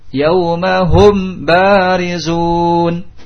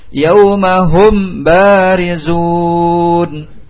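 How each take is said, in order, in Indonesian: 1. Huruf m dibaca jelas sebelum b. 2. Huruf m dibaca jelas sebelum b.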